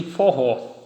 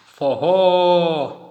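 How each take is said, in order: First: Said in the usual way. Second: Forró called loudly, final RÓ held long; calling out. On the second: Shown as a demonstration. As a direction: stretch the last syllable of Forró like a shout to someone. (chamando Forró alto, com o RÓ final alongado) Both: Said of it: "A sílaba mais forte é a última".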